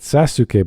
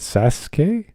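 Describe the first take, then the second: First: All three syllables are pronounced, including the u. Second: The middle u is dropped, giving two syllables. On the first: "Not Sasuke" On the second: "The U is silent"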